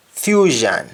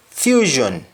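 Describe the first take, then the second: First: Fusion ending in open "zhan"; Jamaican pronunciation. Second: Said in the usual way. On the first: Shown as a demonstration. Teacher showing Jamaican speech, fusion said as "fyuzhan". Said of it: "That is accent". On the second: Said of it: "English words that end with shon".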